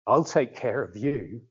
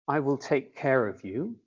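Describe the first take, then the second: First: It is said in a menacing, threatening tone. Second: It is said in a warm, caring tone. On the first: It is a threat of harm. "that's a threat" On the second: It is a reassuring promise of protection. "a nice thing, an appropriate thing for a, a grandfather to say to his grandchild"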